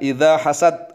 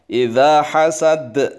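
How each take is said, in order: First: The final consonant sounds like a t. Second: The final d is released with an echoing bounce. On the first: The speaker calls it wrong. "jangan idza hasad. Hasad itu berarti seperti ta" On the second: The speaker calls it right. "hasad harus qalqalah"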